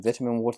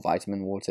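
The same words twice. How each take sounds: First: Vitamin is pronounced in a non-American way. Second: Vitamin is pronounced in the American way.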